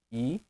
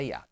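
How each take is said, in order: First: "Hiato" in three isolated pieces: i, a, to; syllable by syllable. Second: Said in the usual way. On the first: Shown as a demonstration. Teacher demonstrating the vowel split, "Hiato" with long gaps between syllables. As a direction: leave long silences inside "Hiato": i... a... to. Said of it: "Vamos separar aqui a palavra hiato". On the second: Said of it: "Vamos separar aqui a palavra".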